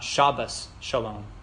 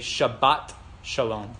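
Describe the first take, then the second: First: The first word ends with an S sound. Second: The first word ends with a T sound. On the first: "not Shabbos Shalom" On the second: This is the Israeli pronunciation. "you would always hear them say Shabbat Shalom"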